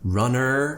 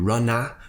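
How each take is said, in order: First: The word ends with an r-coloured 'er' sound. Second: The word ends with an open 'ah' sound. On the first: "with an er, like it more of an American style" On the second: "with more of an ah sound"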